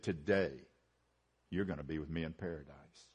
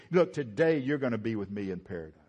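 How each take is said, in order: First: Soft, much lower and quieter promise; tender. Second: A touch of tenderness, quick and understated; lightly tender reassurance. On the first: Jesus to the repentant thief: soft tender promise. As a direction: say it gently, like comfort to a dying man. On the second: Jesus comforting the repentant thief: mildly tender, brisk. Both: Retold or imitated. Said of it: "he said it in a tender voice".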